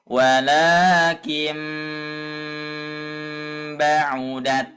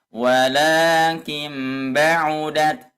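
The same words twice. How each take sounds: First: The nasal hum is held slowly and long. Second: The nasal hum is rushed and cut short. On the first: The speaker calls it right. "lebih disempurnakan lagi ... seperti itu ya" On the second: The speaker calls it wrong. "jangan dibaca gini ... itu terlalu cepat ya"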